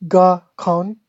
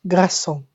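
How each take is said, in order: First: "garçon" as GAR-kon, with a hard K and full N; wrong English pronunciation. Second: "garçon" with an S sound and nasal "on", pitch falling; correct French pronunciation. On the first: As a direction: punch a mistaken "garçon" with English R and K sound. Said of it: "It's not". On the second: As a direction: correct it to "garçon", gra-sonh, throat R. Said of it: "it's garçon". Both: Shown as a demonstration.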